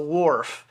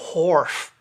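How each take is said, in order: First: The word begins with a plain w sound. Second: The word begins with a breathy hw sound. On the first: The speaker calls it wrong. "a lot of people pronounce it the Wharf" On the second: The speaker calls it right. "the actual pronunciation is Wharf"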